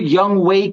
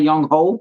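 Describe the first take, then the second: First: The second syllable sounds like 'way'. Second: The second syllable sounds like 'ho'. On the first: The speaker calls it right. "I found out that's how you pronounce it" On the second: The speaker calls it wrong. "it's not Young Ho"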